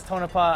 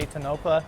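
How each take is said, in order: First: Tonopah said TOH-nuh-pah, stress on the first syllable; his pronunciation. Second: Tonopah said tuh-NOH-puh, stress on the middle syllable; her own pronunciation. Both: Shown as a demonstration. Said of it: "He says Tonopah, I say Tonopah".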